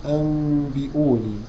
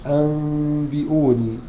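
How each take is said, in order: The two takes are said the same way.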